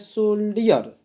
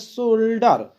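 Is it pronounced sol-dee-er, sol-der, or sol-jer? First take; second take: sol-dee-er; sol-der. First: The middle sounds like 'dee' before the ending. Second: The middle is a plain 'd' sound. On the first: "कुछ लोग पढ़ते हैं सोल्डियर" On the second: "कुछ लोग पढ़ते हैं सोल्डर"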